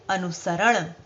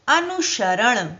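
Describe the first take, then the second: First: अनुसरण said softly with a clear स; soft careful अनुसरण with स; correct pronunciation. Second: अनुसरण said slowly with श; slow demo of the wrong अनुशरण; अनुसरण with श instead of स; wrong pronunciation. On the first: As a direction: model the right अनुसरण with स. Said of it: "सही शब्द क्या बनाएंगे?". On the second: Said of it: "गलत है ये". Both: Shown as a demonstration.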